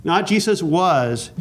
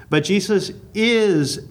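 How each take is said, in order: First: "was" held long as the rejected word; stress on was. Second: "is" stretched out slowly as the correction; stress on is. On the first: Teacher ruling out the past tense, slow stress on "was". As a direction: draw out "was" to set up a contrast. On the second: Teacher correcting to present tense, drawn-out stress on "is". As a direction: lean hard and long on "is". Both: Shown as a demonstration. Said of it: "and that is so important".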